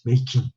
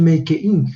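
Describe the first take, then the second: First: "making" with the E dropped, "may-king"; "making" run together without a sounded E; correct making. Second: "making" with the E left in, "make-ing"; "making" split into "may-keh-ing"; wrong make-ing. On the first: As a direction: say "making" as two joined syllables, "may-king". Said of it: "le estamos quitando esa E". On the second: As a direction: say "making" as make plus ing, the E sounded separately. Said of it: "No podemos decir". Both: Shown as a demonstration.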